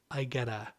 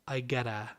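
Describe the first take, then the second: Both takes have the same delivery.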